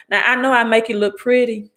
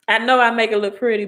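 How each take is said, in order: First: Put-on Southern Mississippi accent. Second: Said in the usual way. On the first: Host joking to live viewers in a Southern Mississippi accent. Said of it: "I said that in my Southern Mississippi voice, accent". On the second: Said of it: "I said that in my Southern Mississippi voice".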